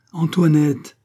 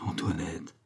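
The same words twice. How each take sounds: First: Loud, high call of her name; alarmed call. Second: Name said low and soft; softer, lower first call to her; quiet call. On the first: Frightened king calls his pale wife, alarmed call. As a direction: raise the voice sharply on the name. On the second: King addresses his wife Antoinette, quiet call. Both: A narrator's reading.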